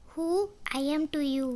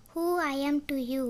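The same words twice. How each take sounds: First: "Who" set apart, then "I am to you" run together; pause after WHO. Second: Said in the usual way. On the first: Shown as a demonstration. English teacher repeats the question for learners, pausing after "Who". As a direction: leave a clear gap after "Who".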